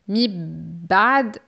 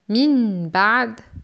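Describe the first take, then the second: First: The n merges away into the following b. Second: The n is pronounced clearly before the b. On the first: "c'est idgham ou assimilation" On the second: "c'est idhar ou clarification"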